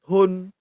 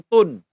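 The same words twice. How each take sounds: First: "tun" as t-hun, with a puff of H; aspirated T. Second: "tun" with a plain T, no puff of H; wrong sound, no H. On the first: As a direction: breathe an H after the T in "tun". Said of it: "harus tun". ("tun" dengan T berhembus, ada bunyi H) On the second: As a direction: say "tun" without aspirating the T. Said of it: "jangan tun". ("tun" tanpa bunyi H setelah T) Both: Shown as a demonstration.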